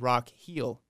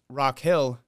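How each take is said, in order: First: The vowel in Hill sounds like 'ee'. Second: The vowel in Hill is a short 'ih'.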